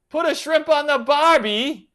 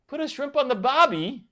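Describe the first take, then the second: First: Put-on loud, high, butchered Australian accent; Jim Carrey's Australian accent. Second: High, less loud second try at Aussie; badly faked Australian accent, pitched up; Jim Carrey's Australian accent. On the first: Streamer teasing Eric from Australia, botched loud Australian accent. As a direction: belt out a hammy, bad Aussie accent. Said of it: "I totally just butchered the accent". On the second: Streamer retrying a movie line for Eric, shaky-attempt Australian accent. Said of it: "trying to say it like Jim Carrey from Dumb and Dumber".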